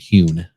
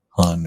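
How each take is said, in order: First: The vowel is a long 'oo' sound. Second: The vowel is a short 'uh' sound. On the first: The speaker calls it right. "I think how it's pronounced" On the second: The speaker calls it wrong. "not Hun or whatever"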